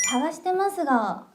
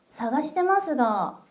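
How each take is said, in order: Both takes have the same delivery.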